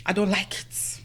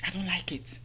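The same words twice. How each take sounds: First: Said in the usual way. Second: Hushed confidential whisper; under the breath, voiceless. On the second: Real, not acted. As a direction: whisper it like a secret. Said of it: "let's whisper it".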